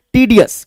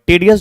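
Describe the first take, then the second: First: टीडियस with long "tee" first syllable; correct pronunciation. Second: टेडियस with "tay" as first syllable; wrong pronunciation. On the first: Teacher giving students the right form, टीडियस said with "tee". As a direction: say टीडियस opening on a clear "tee-". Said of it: "right प्रोनंस-, अ, pronunciation is टीडियस". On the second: Teacher showing students a common error, टेडियस said with "tay". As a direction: mispronounce टेडियस, opening on "tay-" rather than "tee-". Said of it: "वो wrong pronunciation है". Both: Shown as a demonstration.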